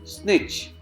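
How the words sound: It is said with an Indian accent. "Indians and British pronounce it as snitch"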